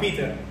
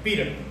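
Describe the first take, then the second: First: It is said in an American English accent. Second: It is said in an American English accent.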